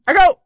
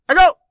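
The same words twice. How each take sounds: First: Loud high call to test echo; canyon echo. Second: Said in the usual way. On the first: Shown as a demonstration. Testing echo in blanket fort.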